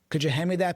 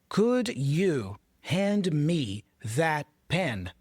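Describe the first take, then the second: First: The words run together in connected speech. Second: Each word is said separately and fully. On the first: The speaker calls it right. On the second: The speaker calls it wrong. "No native speaker in a movie, in a T V show, even in real life, speaks like that"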